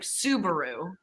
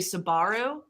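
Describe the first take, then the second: First: It is said with an American pronunciation. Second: It is said with a New Zealand pronunciation. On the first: "so the car like Subaru" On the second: "there they say Subaru"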